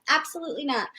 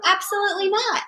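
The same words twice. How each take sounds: First: Firm refusal. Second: Higher, insistent no; firm refusal. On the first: Mother refusing her little child, quiet and firm. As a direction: shut it down quietly. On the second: Mother repeating her no to her child, insistent. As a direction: say it again and mean it. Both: Real, not acted.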